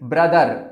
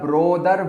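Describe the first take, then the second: First: The first vowel is a short uh sound. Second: The first vowel sounds like the o in go. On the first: The speaker calls it right. "इस word का सही pronunciation होता है ब्रदर" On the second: The speaker calls it wrong. "या ब्रोदर बोलते हैं, जो कि गलत है"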